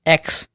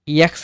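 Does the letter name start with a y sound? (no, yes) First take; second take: no; yes. First: It begins directly with the e vowel. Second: It begins with a y sound before the vowel. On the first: The speaker calls it right. "एक्स पढ़ा जाता है" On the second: The speaker calls it wrong. "इसे यक्स नहीं"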